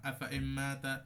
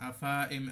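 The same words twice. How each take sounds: First: আফা ইম্মাতা with the alif left silent and a doubled ম; correct reading. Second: আফা ইম read with the extra alif sounded, the wrong way. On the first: Teacher shows students the correct reading of আফা ইম্মাতা. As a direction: read আফা ইম্মাতা smoothly, skipping the alif. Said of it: "এখানে পড়তে হয় এইভাবে". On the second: Teacher shows students the wrong reading of আফা ইম্মাতা. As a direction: sound আফা ইম as the mistake to avoid. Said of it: "এমন হবে না". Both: Shown as a demonstration.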